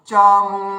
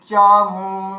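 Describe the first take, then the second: The two takes are said the same way.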